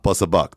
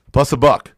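First: Said in the usual way. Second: Loud bid call. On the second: Retold or imitated. Bidder calling out his opening bid, loud.

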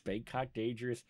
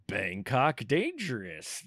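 First: Said in the usual way. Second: BANGKOK DANGEROUS announced slowly, with a falling DANGEROUS; slow, showy title announcement of Bangkok Dangerous; dramatic title reveal. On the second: Real, not acted. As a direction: draw out DANGEROUS like a big reveal.

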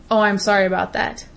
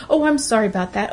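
First: Sincere apology. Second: Quick, hollow "Oh, I'm sorry about that" rattled off; mock empty apology. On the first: Shown as a demonstration. When she truly apologizes to someone, sincere and measured. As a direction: say it like you truly mean it. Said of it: "there is no doubt in their mind that I mean it". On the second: Mocking people who apologize for every movement, hurried hollow sorry. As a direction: toss it off like a reflex. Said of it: "you need to apologize for".

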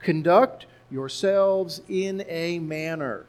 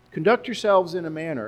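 First: Slow emphatic reading. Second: Said in the usual way. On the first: Shown as a demonstration. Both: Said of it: "five words here in English".

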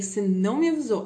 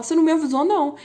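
First: Said in the usual way. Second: Higher and louder protest, hamming it up; mock outraged reply. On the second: Vlogger acting the other Exile singer, mock outraged. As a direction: fire back you never warned me. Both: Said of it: "aí o outro fala".

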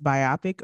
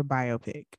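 First: Biopic as bye-OP-ic; biopic rhyming with myopic; first option. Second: Biopic as BYE-oh-pick; biopic as bio plus pick; second option. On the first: Co-host reading the question, first option bye-OP-ic. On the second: Co-host reading the question, second option BYE-oh-pick. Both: Shown as a demonstration. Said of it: "Is it pronounced biopic or biopic?".

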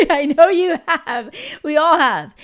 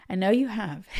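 First: A loud, higher laughing repeat, the words bursting out; laughing loudly. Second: Said in the usual way. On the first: Real, not acted. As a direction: laugh it out big and knowing.

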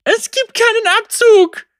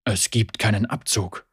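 First: High, loud, frantic cry; panicked girl screaming at the ghost. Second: Low, calm, baffled man; puzzled Lucian. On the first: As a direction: she shouts in terror at the useless gun. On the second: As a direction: lower voice, simply confused. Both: A narrator's reading.

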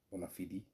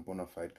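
First: "Bona fide" with fide as two syllables, "FEE-dee"; "Bona fide" ending in an ee sound; Latin-style pronunciation. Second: "bona fide" with fide rhyming with "side"; "bona fide" ending in a long-i "fide"; anglicized pronunciation. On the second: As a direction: say "bona fide" with fide as one syllable, like "fied". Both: Shown as a demonstration. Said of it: "can be pronounced as".

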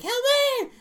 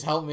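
First: Put-on very high, loud girlish shriek; screaming little girl. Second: Said in the usual way. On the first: Parrot screaming for help, in a little girl's shrill scream. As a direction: scream for help like a small child. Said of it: "screaming, like, in a little girl's voice". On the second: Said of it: "it just screams".

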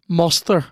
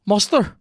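First: Dry repeat. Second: High, sceptical question; mock incredulous. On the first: Retold or imitated. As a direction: repeat it drily. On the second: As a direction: raise it in disbelief. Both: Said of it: "and you're like".

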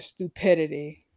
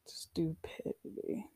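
First: Said in the usual way. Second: Slow, drawn-out whisper; whispered repeat. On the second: Retold or imitated. Patient repeating her retort about working on anger, whispered. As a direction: whisper it slowly, letting each syllable sit.

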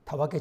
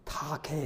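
First: たわけ with a clear わ in the middle; standard tawake. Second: たけ said as taake, with a long あ in place of わ; Nagoya taake. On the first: The pastor shows the standard たわけ before Yoko's correction. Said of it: "「わ」と発音しないで". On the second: The native Nagoya way Yoko taught him, slow taake. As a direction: drop the わ and stretch the あ: taake. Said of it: "「あ」と発音するの". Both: Shown as a demonstration.

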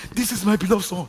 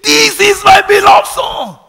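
First: A proud father's boast, pitched higher; a proud father mildly boasting about his son; bragging proud father. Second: Huge proud shout, much higher and louder, slow; the father screams over the crowd at the Jordan; screaming. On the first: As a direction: show off your son, a bit higher and louder. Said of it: "He was bragging". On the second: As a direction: roar it from heaven so the whole river hears. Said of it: "And he screamed". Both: Retold or imitated.

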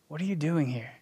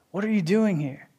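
First: Soft and tender, much softer; gently ask, like a loving father; lovingly. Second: Said in the usual way. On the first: Acted. God gently asking a struggling believer, tender and soft. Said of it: "lovingly say". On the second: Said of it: "repeated take".

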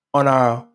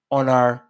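The two takes are said the same way.

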